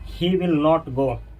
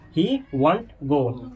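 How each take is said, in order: First: 'Not' is a separate, full word. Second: 'Will not' is merged into one short word.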